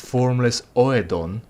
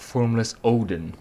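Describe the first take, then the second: First: The name is said unlike the word Odin. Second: The name is said just like Odin. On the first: The speaker calls it right. "It's formless Oedon" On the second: The speaker calls it wrong. "and not formless Odin"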